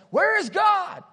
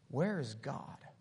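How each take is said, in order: First: It is yelled very loudly. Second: It is said sternly at normal volume.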